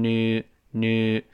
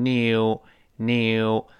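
First: American "new" with barely any y, noo; slow American "new", the glide almost gone; American pronunciation. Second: British "new" with a strong y glide, nyew; drawn-out British nyew for "new"; British pronunciation. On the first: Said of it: "美音呢，这个耶就几乎听不清了". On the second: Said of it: "英式发音有个强烈的耶在里面". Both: Shown as a demonstration.

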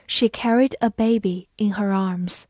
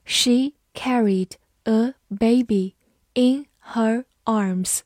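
First: Said in the usual way. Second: Very slow, word by word; slow reading. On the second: Shown as a demonstration. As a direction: spell it out slowly for learners. (很慢地逐词朗读) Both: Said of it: "好，慢慢来读。".

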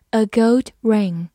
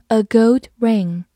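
No difference in how they are said.

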